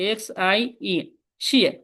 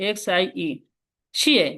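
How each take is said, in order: Both takes have the same delivery.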